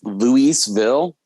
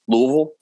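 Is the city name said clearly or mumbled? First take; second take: clear; mumbled. First: The name is said clearly with every syllable. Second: The name is mumbled and slurred together. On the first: This is the standard pronunciation. "is the proper pronunciation" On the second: This is how locals say it. "you say it like you have a mouthful of marbles"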